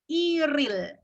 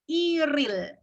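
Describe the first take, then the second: First: The two syllables are linked with an r. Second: The two syllables are linked with an r.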